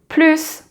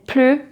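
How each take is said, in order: First: The final S sound is pronounced. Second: The final S sound is silent. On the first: The sentence is positive, meaning more. "plus when it's positive" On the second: The sentence is negative, meaning no more. "plus when it's negative"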